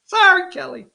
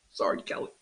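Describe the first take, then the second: First: High mocking sorry, Kelly; sing-song taunt in a put-on voice. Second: Whispered, almost breathless sorry; whispered aside. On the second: Pretend. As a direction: slip the apology out under your breath. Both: Mock apology to rival candidate.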